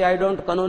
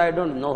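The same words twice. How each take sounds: First: "know" in two beats, k-uh-NO; wrong silent-K pronunciation. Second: KNOW as one clean syllable, "noh"; correct silent K. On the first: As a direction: say KNOW as "kuh-no", sounding the K. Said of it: "नहीं होता". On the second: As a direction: say KNOW as "no", dropping the K. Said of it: "होता है". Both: Shown as a demonstration.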